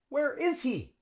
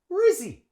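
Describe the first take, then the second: First: Each word is said separately and fully. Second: The words run together and the H drops. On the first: "Native English speaker might say that" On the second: "we use the contraction... we drop the H, link the long E onto the S"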